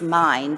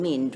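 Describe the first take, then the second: First: The vowel is the letter-name 'I' sound. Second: The vowel is not the letter-name 'I' sound. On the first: The speaker calls it right. "it is clearly the I sound, which gives you the pronunciation as mind" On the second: The speaker calls it wrong. "rather than mind, which would be a different colour"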